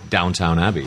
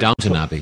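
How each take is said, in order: First: The first word sounds like 'downtown'. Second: The first word ends in a short 'ton'. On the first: The speaker calls it wrong. "I was Americanizing myself" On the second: The speaker calls it right. "I think it's Downton Abbey is the right way"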